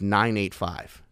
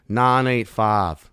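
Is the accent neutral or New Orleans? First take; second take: neutral; New Orleans. First: It is said in a plainer North Shore accent. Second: It is said in a thick New Orleans accent. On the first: "I still have a North Shore area code" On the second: "a person from New Orleans would say that exact same thing. 985 like this"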